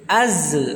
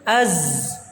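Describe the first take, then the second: First: The z bounces with an added e-like vowel. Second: The z flows smoothly with no added vowel. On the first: The speaker calls it wrong. "Ada yang dipantulkan, ada yang dibaca e" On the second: The speaker calls it right. "tapi kita alirkan saja"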